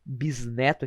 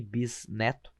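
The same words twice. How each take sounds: First: Said in the usual way. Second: "bisneto" parted between S and N, bis - neto; softer "bisneto", pausing after bis; syllable split. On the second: Shown as a demonstration. Teacher showing where S and N separate in "bisneto", split bis-neto. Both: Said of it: "aqui temos o S e o N".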